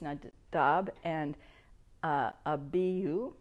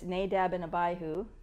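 First: The names are said with a Hebrew pronunciation. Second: The names are said with an English pronunciation. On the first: The speaker calls it right. "the way that the Hebrews pronounce it" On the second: The speaker calls it wrong. "we know them as"

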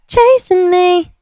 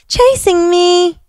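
First: The final g sound is dropped. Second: The final g sound is pronounced. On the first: The speaker calls it right. "Chasin with an apostrophe" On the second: The speaker calls it wrong. "You can't be like"

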